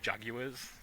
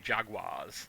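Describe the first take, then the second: First: The word is said in an English accent. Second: The word is said in an American accent. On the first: "or you sound too English if you say Jaguars" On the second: "you either sound too American if you say Jaguars"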